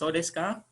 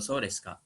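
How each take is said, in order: First: The pitch rises at the end. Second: The pitch falls at the end. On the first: The speaker does not believe it. "Kalau nadanya ke atas" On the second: The speaker has just understood something. "oh begitu ya"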